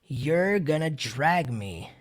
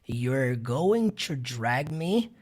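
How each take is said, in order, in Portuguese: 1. 'Going to' é reduzido para 'gonna'. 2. 'Going to' é dito por extenso.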